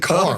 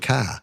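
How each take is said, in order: First: The final r is clearly pronounced. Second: The final r is dropped, Queens-style.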